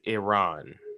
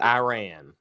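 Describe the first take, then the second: First: The first syllable sounds like 'ee'. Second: The first syllable sounds like 'eye'. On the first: The speaker calls it right. "it is Iran" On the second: The speaker calls it wrong. "not Iran"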